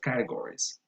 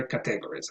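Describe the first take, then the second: First: Categories said CAT-e-gor-ies; careful four-syllable categories; full form. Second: Categories said ca-TEG-ories; misplaced stress. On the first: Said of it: "or you can also say". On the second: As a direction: demonstrate the mistaken beat on TEG in categories. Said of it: "but never categories". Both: Shown as a demonstration.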